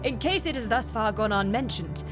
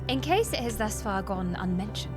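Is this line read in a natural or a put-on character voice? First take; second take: put-on; natural. First: It is read in an imitated character voice. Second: It is read in the speaker's ordinary voice.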